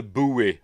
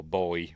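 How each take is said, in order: First: "buoy" said as "boo-ee"; "buoy" with an oo then ee; two-syllable buoy. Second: Put-on "buoy" said just like "boy"; "buoy" rhyming with toy; one-syllable buoy. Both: Shown as a demonstration. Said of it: "whatever you wanna call it".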